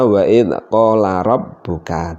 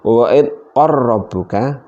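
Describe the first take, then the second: First: The L sound is kept before rabbuka. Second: The L sound merges into a doubled R. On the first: "umumnya dibaca wa'id qala rabbuka" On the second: "tapi dibaca seperti ini, wa'id qarrabbuka, hukumnya juga boleh"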